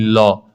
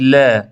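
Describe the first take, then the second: First: لا with a dark, back aa; heavy, lower لا; wrong heavy لا. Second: لا with a light, fronted a; light, open لا; correct thin لا. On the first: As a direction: say لا rounded, like "law". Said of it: "نخونید لا". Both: Shown as a demonstration.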